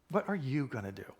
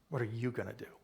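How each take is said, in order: First: The stress falls on the word you. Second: The same.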